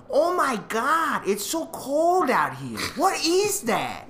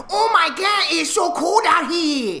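First: Put-on high, slow older Asian lady accent; loud-ish impression of an Asian lady's accent. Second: Very high, loud, hammed-up Asian accent; over-the-top shrieked Asian accent, drawn out; offensive Asian accent caricature. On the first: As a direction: imitate a tiny older Asian woman's thick accent, drawn out and high. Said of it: "that's actually how she sounded". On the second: Shown as a demonstration. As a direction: shout it as an exaggerated mock Asian accent. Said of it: "then that's offensive".

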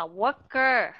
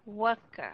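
First: Worker with both syllables equally full; don't reduce the er of worker; heavy er in worker; over-clear ending. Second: Worker with the final er soft and reduced; light uh ending worker; weak schwa ending. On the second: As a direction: let the end of worker drop. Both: Shown as a demonstration. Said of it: "Mà đừng có đọc là worker".

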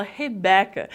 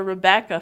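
First: Rebecca said as Hebecca, h sound for the r; Brazilian h for r. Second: Rebecca with an English r. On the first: Teacher imitating Brazilians saying Rebecca as Hebecca. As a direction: swap the r in Rebecca for an h. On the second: Teacher showing students the correct Rebecca. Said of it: "Ao invés de falar". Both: Shown as a demonstration.

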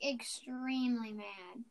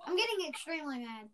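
First: Slow, lowered, emphatic irritation; extremely mad. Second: Understated annoyance at normal volume; extremely mad. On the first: Podcaster driving home the annoyance to listeners, slow and mad. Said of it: "Like, extremely mad". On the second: Podcaster telling listeners about the frustration, mildly mad. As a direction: grumble it with contained irritation. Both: Real, not acted.

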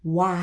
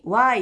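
First: 「Y」 starting from tightly rounded lips, opening into "wai"; English-like Y. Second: Said in the usual way. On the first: Shown as a demonstration. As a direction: say 「Y」 English-style with a strong rounded w onset. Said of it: "ちょっと英語っぽくYになる". (「Y」を唇をすぼめてから英語っぽく) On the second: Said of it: "普通にYって言うと日本語".

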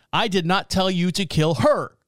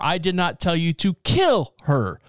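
First: "her" stressed at the end with a falling tune. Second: "kill" punched, slow delivery; stress on kill. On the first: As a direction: lean on "her" and let it fall. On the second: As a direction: hit "kill" hard and slowly. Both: Shown as a demonstration. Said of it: "Depending on how you emphasize the phrase".

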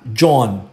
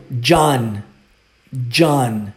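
First: John with a closed Portuguese O, Jon; wrong Brazilian John. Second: John with an open A-like vowel, Jahn; right John. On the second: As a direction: say John correctly, with an A sound. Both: Shown as a demonstration.

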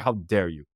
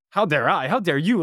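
First: Low mock reproach; disappointed indignation. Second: Higher, incredulous comeback; indignant retort. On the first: The jacket seller to the student, disappointed and low. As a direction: act out his wounded look in a lowered voice. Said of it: "He looks at me disappointed". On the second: Retold or imitated. Student retorting to the jacket seller, mock-indignant. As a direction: throw it back at him, pitched up. Student throws the reproach back.

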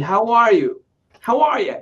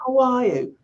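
First: Higher-pitched gringo "how are you"; American accent. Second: Higher-pitched mock British "how are you"; British accent. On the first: Showing how gringos greet, imitated American accent. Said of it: "hablar como hablan los gringos". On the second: Newcomer whom Americans don't understand, mock British accent. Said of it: "hablas con un acento british". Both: Shown as a demonstration.

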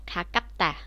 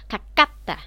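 First: 가깝다 without the extra k, ka-kkap-ta; single k. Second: 가깝다 fast with the k doubled, kak-kkap-ta. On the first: Teacher shows the wrong reading to students. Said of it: "thay vì nói là". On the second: Teacher shows the natural reading to students. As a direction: hit the added k in 가깝다. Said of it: "mình sẽ là". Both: Shown as a demonstration.

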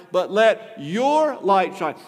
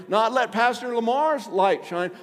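First: YOUR stretched and punched loud as the correction; stress on your. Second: Lamar's lifted high as the wrong person; stress on Lamar's. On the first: Preacher turns the command onto the listener, stress on your. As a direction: lean slowly and hard on "your". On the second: Preacher rules out someone else's light, stress on Lamar's. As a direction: hit "Lamar's" with a raised pitch, setting up a contrast. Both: Shown as a demonstration.

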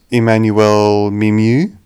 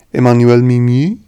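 First: Said in the usual way. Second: "Emmanuel Mimieux" said with French nasal vowels; French accent. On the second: Shown as a demonstration. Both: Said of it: "I hope you like my French accent".

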